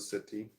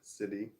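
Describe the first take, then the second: First: The middle consonant is a clear T. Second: The middle consonant sounds like a soft D. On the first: "as opposed to city, which takes a little bit more effort" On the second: "city with the D's"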